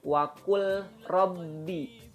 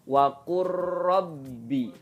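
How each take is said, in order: First: The l is pronounced separately before the r. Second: The l is merged fully into the r. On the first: The speaker calls it wrong. "bukan wakul rabbi" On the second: The speaker calls it right. "Jadi bacanya waqur rabbi"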